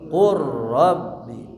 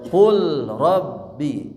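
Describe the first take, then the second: First: The L disappears into a doubled R. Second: The L is pronounced before a single R. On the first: "dibaca idgham" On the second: "asalna kumaha?"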